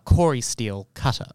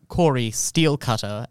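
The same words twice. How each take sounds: First: Steel is grouped with quarry. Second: Steel is grouped with cutter. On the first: A cutter made of the Quarry's steel. The speaker calls it right. "But it is, in fact, a Quarry Steel Cutter" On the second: A steel cutter that belongs to the Quarry. The speaker calls it wrong. "So it is not Quarry Steel Cutter, as is my immediate thought"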